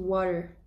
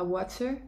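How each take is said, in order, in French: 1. La consonne du milieu ressemble à un D doux. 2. La consonne du milieu est un T bien net. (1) "on remplace le T par un D" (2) "on dit pas water"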